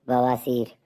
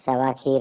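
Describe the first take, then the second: First: बवासीर said as one word, ब-वा-सीर; right take बवासीर; correct word. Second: सवा खीर said as two words, सवा then खीर; wrong take सवा खीर; mispronounced. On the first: Shown as a demonstration. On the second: Acted. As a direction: garble बवासीर into सवा खीर. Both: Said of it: "सवा खीर नहीं, बवासीर".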